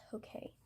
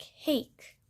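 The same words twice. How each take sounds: First: "Hokey" in two syllables, HO-kay; correct pronunciation. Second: "hake" as one syllable, rhyming with cake; read as spelled. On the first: Painter teaching viewers the brush's name, careful pronunciation. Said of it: "but it is pronounced Hokey". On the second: Painter showing viewers how the brush name is spelled, read as spelled. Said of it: "It is spelled like hake". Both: Shown as a demonstration.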